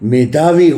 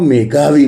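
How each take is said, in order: First: The middle consonant is a 'dh' sound. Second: The middle consonant is a 'gh' sound. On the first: The speaker calls it right. "ત્યાં પણ ધજાનો ધ જોઈએ" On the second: The speaker calls it wrong. "એના બદલે ઘરનો ગ બોલે છે"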